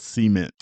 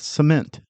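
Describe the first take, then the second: First: The stress is on the first syllable. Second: The stress is on the second syllable. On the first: The speaker calls it wrong. "why did you say it that way?" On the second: The speaker calls it right. "Let me redo that"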